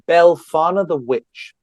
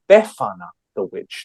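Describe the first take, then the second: First: The name has an L sound after the first vowel. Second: The name has no L sound after the first vowel. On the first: The speaker calls it wrong. "I may have got some of these wrong or mispronounced" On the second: The speaker calls it right. "No L"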